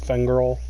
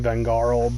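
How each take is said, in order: First: The name begins with an F sound. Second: The name begins with a V sound. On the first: The speaker calls it wrong. "I know I say it like with an F" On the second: The speaker calls it right. "It's supposed to be Vengarl"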